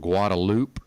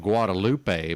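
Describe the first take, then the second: First: It is pronounced the way locals say it. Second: It is pronounced the way it is spelled. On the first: This is what the people who live there call it. "the main drag by U T is called Guadalupe" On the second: This follows the written form of the name. "but it's spelled Guadalupe"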